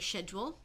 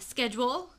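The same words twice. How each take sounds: First: It is said in a British way. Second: It is said in a non-British way. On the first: "I don't say schedule" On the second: "because I'm not British"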